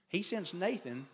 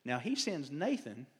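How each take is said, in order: First: Nathan langzaam en nadrukkelijk, hoger uitgesproken; stress on Nathan. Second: Said in the usual way. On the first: Shown as a demonstration. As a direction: leg de klemtoon op "Nathan", hoger.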